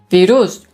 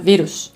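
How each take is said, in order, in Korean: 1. 강세는 마지막 음절에 있습니다. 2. 강세는 첫 번째 음절에 있습니다. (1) "루스의 강세를 두시던데" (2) "앞에다 강세를 줘야 되거든요"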